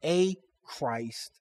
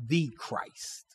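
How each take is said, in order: First: A stressed as a full word before Christ. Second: THE set apart as the contrasting word; stress on THE. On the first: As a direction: lean on A, setting it apart from Christ. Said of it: "Note the emphasis on a Christ". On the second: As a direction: lean on THE, softer, falling away on Christ. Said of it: "Note the emphasis on a Christ, not the Christ". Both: Shown as a demonstration.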